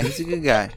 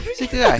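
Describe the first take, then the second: First: Said in the usual way. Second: Mock falsetto; squeaky high voice. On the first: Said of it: "repeats line plainly". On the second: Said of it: "repeats line in silly high voice".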